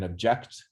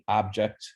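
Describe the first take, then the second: First: The stress is on the second syllable. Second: The stress is on the first syllable. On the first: "the second one sounds louder" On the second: "I say the first one sounds louder"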